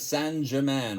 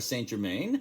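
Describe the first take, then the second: First: It is pronounced with a French accent. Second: It is pronounced with an American accent.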